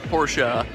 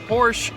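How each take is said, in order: First: The name is pronounced in the standard way. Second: The name is pronounced in a casual, informal way. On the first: The speaker calls it right. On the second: The speaker calls it wrong.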